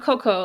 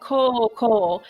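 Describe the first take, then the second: First: Both O vowels are short and clipped. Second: Both O vowels are held long. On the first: The speaker calls it wrong. "not Coco, like in as the, I think it's the gorilla" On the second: The speaker calls it right. "I think it's like Koko ... the long marks over his O's"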